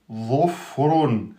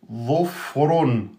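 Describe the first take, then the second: No difference in how they are said.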